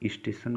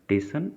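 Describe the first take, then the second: First: The word is said with its opening s sound. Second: The word is said without its opening s sound. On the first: The speaker calls it right. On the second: The speaker calls it wrong.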